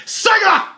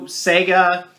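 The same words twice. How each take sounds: First: "Sega!" sung out high and loud; chipper 1950s ad. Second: Said in the usual way. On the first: Retold or imitated. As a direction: shout "Sega!" like an old commercial. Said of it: "as the old commercials would pronounce it". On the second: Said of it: "or as the old commercials would pronounce it".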